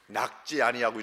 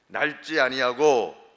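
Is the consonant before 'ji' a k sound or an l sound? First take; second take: k sound; l sound. First: The first word is said with a k sound. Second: The first word is said with an l sound. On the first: The speaker calls it wrong. "저는 낙지 아니하고 이렇게 발음하는데" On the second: The speaker calls it right. "보통 네. 날지 아니하고"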